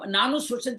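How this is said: It is said as one joined word. The speaker calls it wrong. "एक साथ पढ़े"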